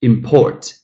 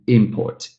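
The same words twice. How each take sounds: First: "import" as im-PORT; the verb import, end-stressed; second-syllable stress. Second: "import" as IM-port; the noun import, front-stressed; first-syllable stress. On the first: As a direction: lean on the last syllable of import. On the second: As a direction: lean on the opening syllable of import. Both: Shown as a demonstration. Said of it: "the same situation goes to".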